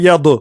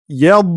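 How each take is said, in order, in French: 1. La consonne finale est relâchée avec un rebond. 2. La consonne finale est bloquée en retenue, sans relâchement. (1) "On dit pas yad, yad. / de faire une qalqala" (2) "On doit bloquer le dad"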